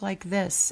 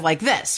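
First: It is said quietly and timidly. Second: It is said loudly and boldly.

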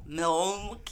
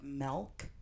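First: The L sound is heavily overpronounced. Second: The vowel sounds like an 'e', as in 'melk'. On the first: "Some people overpronounce the L" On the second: "says it with an E in it"

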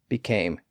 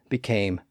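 The two takes are said the same way.

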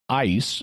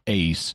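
First: The vowel sounds like the one in 'ice'. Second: The vowel sounds like the one in 'ace'. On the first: The speaker calls it wrong. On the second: The speaker calls it right.

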